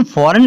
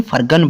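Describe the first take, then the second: First: फॉरेन, no G before the N; silent G. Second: फरगन, with a hard G before the N; wrongly voiced G. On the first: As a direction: leave the G out of फॉरेन. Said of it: "फॉरेन इसको पढ़ना है". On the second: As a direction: misread it as फरगन, G sounded. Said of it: "ना कि फरगन पढ़ना है". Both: Shown as a demonstration.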